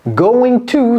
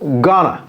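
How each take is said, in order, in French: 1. Les deux mots sont prononcés en entier et séparément. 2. Les mots se compressent en un seul mot court. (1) "going to se compresse en gonna" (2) "Quand un Américain parle à vitesse normale"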